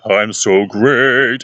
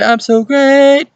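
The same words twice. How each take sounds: First: Slow, drawn-out, controlled voice at normal pitch; measured, sustained mock performer voice; improved performer. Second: Very high, loud, drawn-out mock squawk; exaggerated beginner voice, high and stretched; young beginner performer. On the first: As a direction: imitate a polished performer, stretching each word. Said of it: "And you see another thing like". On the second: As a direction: imitate an untrained youngster, loud and piercingly high. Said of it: "whenever they're young".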